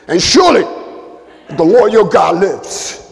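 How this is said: It is read in an emotional, put-on street voice.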